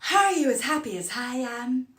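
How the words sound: Vowel-initial words start with an audible h-sound.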